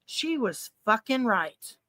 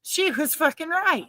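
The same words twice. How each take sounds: First: Slow, soft, weighted words; hushed, drawn-out realization; stunned realization. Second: Raised pitch, emphatic conviction; emphatic repeat. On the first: Retold or imitated. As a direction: let it sink in, word by word. Recalls realizing mom was right. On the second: Real, not acted. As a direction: repeat it higher, driving the point home.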